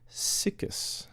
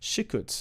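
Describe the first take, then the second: First: The word begins with a plain 's' sound. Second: The word begins with an 'sh' sound. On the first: It is read the way it looks when written. The speaker calls it wrong. "it looks like sickest" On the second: It is said the way native speakers say it. The speaker calls it right. "Shikuts is how they pronounce it"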